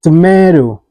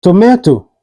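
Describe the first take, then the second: First: TOMATO with the last T tapped, "tomaydo"; flapped T. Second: TOMATO with a clear second T; T fully pronounced. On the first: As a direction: say "tomato" American style, like "tomaydo". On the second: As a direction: say "tomato" with both T's crisp. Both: Shown as a demonstration. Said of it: "is pronounced like".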